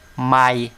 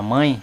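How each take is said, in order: First: The vowel sound comes out through the mouth. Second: The vowel sound comes out through the nose. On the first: "se eu tirar o acento da palavra mãe, fica mai" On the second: "o som do A com o tio é um som que sai pelo nariz"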